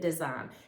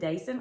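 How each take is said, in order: First: It sounds like the English word 'design'. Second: It sounds like 'day' followed by 'son'. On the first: "or is it a design?" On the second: "like I've been pronouncing it"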